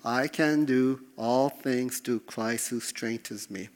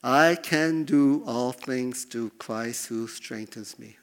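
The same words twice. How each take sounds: First: Slow, firm confession of the verse; slow personal declaration. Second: Slow, deliberate reading of the verse; slow scripture reading. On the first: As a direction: own it, slowly. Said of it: "make the truth personal". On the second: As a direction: read it out slowly, word by word. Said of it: "I want you to speak that out". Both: Shown as a demonstration.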